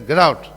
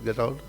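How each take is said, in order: First: It is said sharply and forcefully. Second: It is said softly and mildly. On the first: The listener must leave at once. "Immediately you will go" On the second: The listener may leave when ready. "You may go now, okay?"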